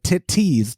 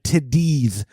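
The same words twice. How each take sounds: First: The middle consonant is a hard T sound. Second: The middle consonant is a soft D sound. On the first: This gets flagged as explicit content. "if you said it with a hard T, like" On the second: This is acceptable and avoids an explicit flag. "to emphasize the D, like"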